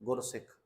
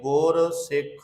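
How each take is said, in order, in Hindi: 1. दोनों हिस्से एक शब्द की तरह जुड़कर बोले जाते हैं। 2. दोनों हिस्से अलग-अलग शब्दों की तरह बोले जाते हैं। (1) "ਅਸੀਂ ਬਹੁਤਾਤ ਗਿਣਤੀ 'ਚ ਅੱਜ ਤੱਕ ਗੁਰਸਿੱਖ ਹੀ ਪੜ੍ਹਦੇ ਆਏ" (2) "ਗੁਰੂ ਤੇ ਸਿੱਖ ਦੋਵੇਂ ਅਲੱਗ ਅਲੱਗ ਨੇ"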